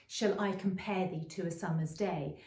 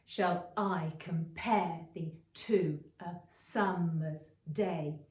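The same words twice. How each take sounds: First: Said in the usual way. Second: Slow "Shall I compare thee to a summer's day?" with every second syllable stressed; iambic da-dum beat. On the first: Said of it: "There's a really well-known line". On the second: Shown as a demonstration. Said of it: "that da-dum beat is in there".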